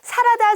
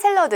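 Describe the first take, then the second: First: It is said as three syllables, sa-ra-da. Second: It is said as saeng-reo-deu, with an l sound. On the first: The speaker calls it wrong. "옛날에 그 일본식 발음이 있고요" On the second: The speaker calls it right. "샐러드가 맞죠"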